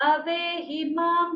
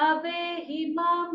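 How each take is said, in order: The two takes are said the same way.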